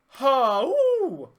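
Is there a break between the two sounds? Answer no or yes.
no. The two sounds run together without a break. "let's get rid of the break in the middle, or that pause in the middle"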